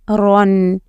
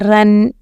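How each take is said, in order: First: The syllable is said heavy and full. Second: The syllable is said light and thin. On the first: The speaker calls it right. "it is run. ... Ra should be pronounced heavily" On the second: The speaker calls it wrong. "It is not run"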